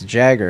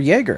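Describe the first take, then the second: First: The name is said like the word Jagger. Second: The name is said like the word Jaeger. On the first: This is the name's real pronunciation. The speaker calls it right. "it's Jagger, actually" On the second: Someone else mispronounced the name. The speaker calls it wrong. "a teacher who was convinced that that was how you pronounce my name"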